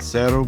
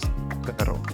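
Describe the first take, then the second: First: The first consonant is an s sound. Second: The first consonant is a th sound. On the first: "in Central and South America, it will sound like an S sound" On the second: "in Spain... generally you will hear a T H sound"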